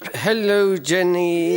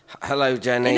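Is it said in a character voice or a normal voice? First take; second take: character voice; normal voice. First: It is said in a put-on character voice. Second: It is said hesitantly in a normal voice. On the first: The speaker calls it right. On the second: The speaker calls it wrong.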